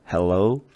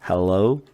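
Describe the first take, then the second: The two takes are said the same way.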